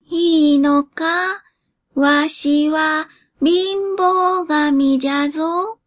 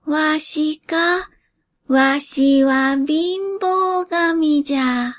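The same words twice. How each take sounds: First: Put-on slow, higher croaky old spirit asking in doubt; an ancient god checking, unsure; creaky wise old man. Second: Put-on slow, higher croaky old spirit; creaky wise old man. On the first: Poverty god asks doubtfully. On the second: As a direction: creak it out like an ancient god of poverty. Poverty god answers.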